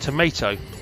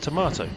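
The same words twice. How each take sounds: First: It is said with an American pronunciation. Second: It is said with a British pronunciation. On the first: The speaker calls it wrong. "they used tomato on me" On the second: The speaker calls it right. "no, I'm sorry, it's tomato"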